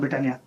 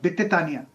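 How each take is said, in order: First: It starts with a 'br' cluster, four syllables. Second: It starts with 'bi' and adds a syllable. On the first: The speaker calls it right. "मैं pronounce नहीं कर पा रहा था ब्रिटानिया" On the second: The speaker calls it wrong. "बोला बित्तेतानिया"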